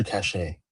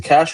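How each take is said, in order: First: "cache" said like "cash-AY"; "cache" pronounced kash-AY, like "cachet"; two-syllable cache. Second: "cache" said like "cash"; "cache" pronounced KASH, with no ending vowel; one-syllable cache. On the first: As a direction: say "cache" with an added "ay" at the end. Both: Shown as a demonstration. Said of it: "Is it cache or cache?".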